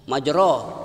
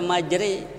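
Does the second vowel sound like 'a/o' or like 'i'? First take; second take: a/o; i. First: The second syllable has an open 'o' vowel. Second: The second syllable has a tilted 'i' vowel. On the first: This is how the word is written. The speaker calls it wrong. "barisnya majro, baris atas ro itu" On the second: This is how the word must be recited. The speaker calls it right. "Tapi harus dibaca majri"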